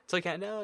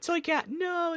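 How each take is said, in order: First: The voice is at a normal, lower pitch. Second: The voice is put on and very high-pitched. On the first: The speaker calls it right. "There we go, much better" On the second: The speaker calls it wrong. "It really hurts to do a voice that high pitch"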